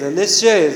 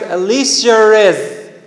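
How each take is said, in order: First: The two vowels join with no added sound. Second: An r sound links the two vowels, British-style.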